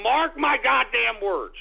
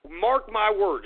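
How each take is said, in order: First: "Mark" punched, slower and louder; emphatic warning. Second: Said in the usual way. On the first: Shown as a demonstration. Host warning viewers of a crash, slow emphatic stress on "Mark". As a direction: lean hard on "Mark my goddamn words".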